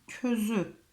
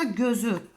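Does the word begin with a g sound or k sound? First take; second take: k sound; g sound. First: The word begins with a k sound. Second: The word begins with a g sound. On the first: The speaker calls it wrong. "Kef olsaydı közü diye okudum" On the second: The speaker calls it right. "Gef olursa gözü diye okunur"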